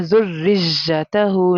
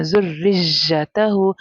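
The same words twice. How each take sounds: First: ज़ुर्रियतहु with a whistling hiss on the ya; wrong whistled ya. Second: ज़ुर्रियतहु with a clean ya and no whistle; careful ज़ुर्रियतहु, ya said smoothly without hiss; correct ya. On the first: Teacher shows students the common mistake, whistled ya. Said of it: "या के अंदर एक whistle sound". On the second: Teacher gives students the right way, clean ya. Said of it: "good pronunciation". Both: Shown as a demonstration.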